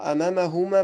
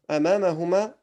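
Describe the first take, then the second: First: The words run together without a pause between them. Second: A pause separates the words; the second starts with i. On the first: "tu fais la liaison, tu diras" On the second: "si tu fais un arrêt, ce sera ibnuhuma"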